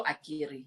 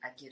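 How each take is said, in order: First: "Akiri" said the Zulu way, with ee vowels; Zulu pronunciation. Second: "Akiri" said the Sotho way, as Akere; Sotho pronunciation. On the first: Guest explaining her own word, Zulu pronunciation of "Akiri". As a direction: say "Akiri" as ah-GEE-ree. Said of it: "it's the Zulu Akiri". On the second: Guest contrasting the Sotho word, Sotho pronunciation of "Akiri". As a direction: say "Akiri" with e vowels, ah-KEH-reh. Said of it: "the Sotho Akiri is A K E R E". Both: Shown as a demonstration.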